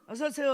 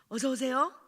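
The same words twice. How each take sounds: First: The greeting sounds careless and perfunctory. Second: The greeting sounds warm and sincere.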